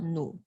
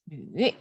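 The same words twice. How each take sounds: First: It is said with the tone meaning anger. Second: It is said with the tone meaning woman. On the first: The word means anger. The speaker calls it wrong. "not nu ... nu can also mean anger" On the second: The word means woman. The speaker calls it right. "we pronounce nu"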